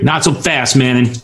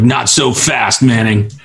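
First: It is said in the character's usual voice. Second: It is said in a different, mismatched voice. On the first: The speaker calls it right. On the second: The speaker calls it wrong.

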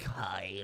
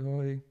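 First: It sounds creepy and leering. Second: It sounds awkward and shy.

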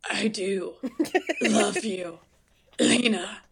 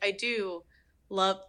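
First: It is said in an imitated voice, with long pauses. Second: It is said in the speaker's own normal voice.

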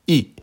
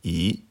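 First: The pitch falls sharply from high. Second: The pitch rises from middle to high. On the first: "Quatrième ton" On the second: "Deuxième ton"

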